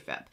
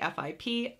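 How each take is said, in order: First: It is said as a single word. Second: It is spelled out as separate letters. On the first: The speaker says it this way. "I say FIP" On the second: Others say it this way. "Some people might say FIP"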